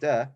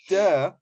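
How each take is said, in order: First: It is said mildly, without much force. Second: It is said hard and nasty, with force.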